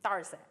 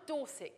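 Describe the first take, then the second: First: Broad rural Dorset pronunciation; Dorset accent. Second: Said in the usual way. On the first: Shown as a demonstration. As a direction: say the county name in thick Dorset dialect. Repeats Dorset in local dialect.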